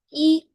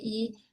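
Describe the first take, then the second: First: I held high and level; first tone. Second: Said in the usual way. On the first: Shown as a demonstration. Teacher shows the right reading, I high and level. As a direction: pitch I high and keep it there. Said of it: "primer tono, número uno". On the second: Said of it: "no se lee I".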